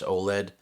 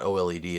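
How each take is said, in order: First: Oled pronounced as one word, "oh-led". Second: O L E D said letter by letter; spelled-out letters. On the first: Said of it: "the number of times people say to me". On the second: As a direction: spell out O L E D as four separate letters. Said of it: "people say to me, "It's not O L E D". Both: Retold or imitated.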